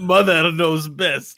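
It is said in a Scottish-sounding accent.

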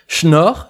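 The first sound is a 'ch' sound. This is the northern regional way of saying it.

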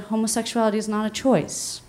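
It is said in a calm, gentle tone. Listeners are given space to take it in. "she read it calm and patient and compassionate and almost loving"

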